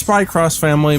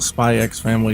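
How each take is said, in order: First: The middle word is said as 'cross'. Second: The middle word is said as the letter X. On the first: "it is Spy Cross Family" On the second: "but I call it Spy X Family"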